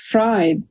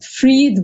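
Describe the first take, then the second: First: The vowel sounds like the one in 'fry'. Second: The vowel sounds like the one in 'free'. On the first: The spelling reads as the word for frying. "but it's Fried" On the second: This is how the family says the name. "they pronounce it Freed"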